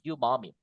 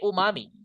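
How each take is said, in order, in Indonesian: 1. Kata ini dimulai dengan bunyi y. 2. Kata ini dimulai dengan vokal oo biasa. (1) "ini dibaca y ya, you, you gitu" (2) "We cannot say umami"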